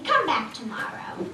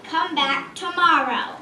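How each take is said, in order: First: Lightly voiced dragon dismissing her; dragon brushing off. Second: Loud, slow, fed-up dragon shout; angry dragon. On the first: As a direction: shoo her away offhand. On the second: Acted. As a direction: roar it back at her. Dragon repeats dismissal, louder.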